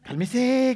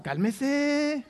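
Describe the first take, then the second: First: A higher, drawn-out cálmese, like the street says it; tossed-off slangy cálmese; street slang. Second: Cálmese sung out higher in a slangy street voice; mock-soothing cálmese the way the street says it; street slang. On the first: Retold or imitated. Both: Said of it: "como dicen las razas".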